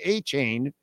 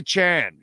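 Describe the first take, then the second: First: The second syllable sounds like 'chain'. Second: The second syllable does not sound like 'chain'. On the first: The speaker calls it wrong. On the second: The speaker calls it right.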